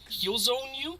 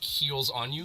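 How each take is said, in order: First: The s sound starts the second word. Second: The s sound ends the first word. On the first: Other people say the name this way. The speaker calls it wrong. "A lot of people mispronounce my name" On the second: It means giving heals to you. The speaker calls it right. "I always wanted it to be like heals on you"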